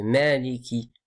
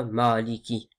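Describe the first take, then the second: First: "Maliki" with a light "mae"; thin the first vowel of "Maliki" toward è; careful "Mèliki". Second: "Maliki" with a dark "maa"; faulty heavy "Maaliki"; heavy vowel. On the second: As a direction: darken the first vowel of "Maliki". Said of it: "C'est pas". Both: Shown as a demonstration.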